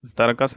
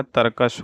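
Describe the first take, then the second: First: तर्कस ending in s, not sh; wrong pronunciation. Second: Said in the usual way. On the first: Shown as a demonstration. Teacher shows students the error, तर्कस with final s. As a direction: finish तर्कस on a plain स. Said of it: "नहीं होता है". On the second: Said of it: "होता है".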